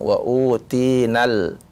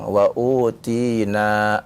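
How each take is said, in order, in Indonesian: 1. Vokal akhirnya pendek dan disambung ke kata berikutnya. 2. Vokal akhirnya panjang sebelum huruf henti. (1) "Kalau dia baca wasol jelas harus disambung wa utinal, tidak ada panjang" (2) "kalau waqaf maka boleh dia baca panjang"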